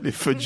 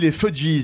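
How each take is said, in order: First: The name is said with an American reading. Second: The name is said with a French reading. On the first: The speaker calls it right. "Ils sont en prononce à l'américaine" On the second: The speaker calls it wrong. "il y avait un côté les Juifs, on dirait un groupe juif"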